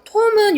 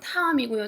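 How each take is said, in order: First: It is said with a British accent. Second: It is said with an American accent.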